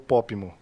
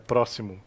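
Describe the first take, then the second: First: The word is simplified to 'popimo'. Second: The word is said in full as 'próximo'. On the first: The speaker calls it wrong. "ela falou Pópimo" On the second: The speaker calls it right. "que é próximo"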